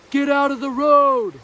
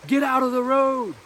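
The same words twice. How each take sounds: First: Very loud, high, drawn-out yell; full-force slow shouted warning, louder still; dad yelling. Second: Put-on sharp, high warning yell to a child in the road; sudden loud scream of warning; screaming at kids. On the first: Retold or imitated. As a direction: stretch it out like a father bellowing across the street. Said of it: "Dad, yelling". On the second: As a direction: bark it out like a frightened parent. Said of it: "I scream at them".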